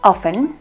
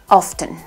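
First: The T in the middle is silent. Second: The T in the middle is pronounced. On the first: "que se puede pronunciar con una T silenciosa" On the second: "pero también puedes decirla pronunciando la T"

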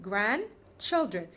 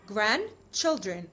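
No difference in how they are said.

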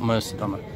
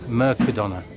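First: The c is not said as a k sound. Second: The c is said as a k sound. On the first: The speaker calls it wrong. "not Mercadona" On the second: The speaker calls it right. "it's Mercadona, the C is a K"

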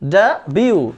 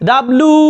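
First: The middle sounds like 'byoo'. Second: The middle sounds like 'bloo'. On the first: The speaker calls it right. "এখন থেকে এটার উচ্চারণ হবে ড্যাবিউ" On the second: The speaker calls it wrong. "এতদিন পর্যন্ত এটাকে কি বলছিলাম? ডাব্লু ... বলা যাবে না"

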